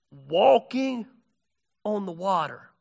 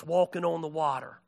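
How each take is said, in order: First: "Walking" drawn out and set apart from "on the water"; emphatic repeat. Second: Said in the usual way. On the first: Real, not acted. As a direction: lean on "Walking", pause, then drop on "on the water".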